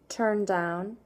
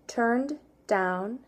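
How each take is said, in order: First: The words flow smoothly with one linked sound. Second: There is a choppy break between the words. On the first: The speaker calls it right. "then I'll do it smooth" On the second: The speaker calls it wrong. "First I'll do it with a choppy break between"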